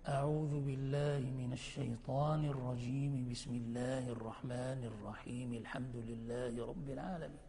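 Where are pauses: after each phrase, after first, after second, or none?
none. All three phrases run together without pausing. "فتصل الكل"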